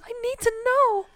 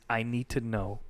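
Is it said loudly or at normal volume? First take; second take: loudly; normal volume. First: It is said very loudly, in your face. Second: It is said at normal volume.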